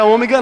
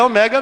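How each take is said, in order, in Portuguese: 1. A sílaba tônica é a primeira. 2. A sílaba tônica não é a primeira. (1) "Não é ômega não, e nós só falamos errado" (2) "O acento não está no O, é omega. ... mas é o certo no original do grego, é omega mesmo"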